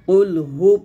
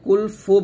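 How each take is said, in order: First: The second word starts with an h sound. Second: The second word starts with an f sound. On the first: The speaker calls it right. "কুল হু পড়তে হবে" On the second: The speaker calls it wrong. "হায়ের জায়গায় ফা পড়ি"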